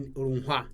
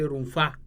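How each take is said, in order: First: The middle consonant is an hw sound. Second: The middle consonant is an f sound. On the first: "When you are in Ni- Niger or some areas they say rumfa" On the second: "the standard Hausa say rumfa"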